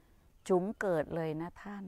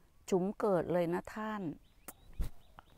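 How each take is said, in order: First: Drawn out. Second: Said in the usual way. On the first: Retold or imitated. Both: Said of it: "ป้าตุ๋มพูดว่า".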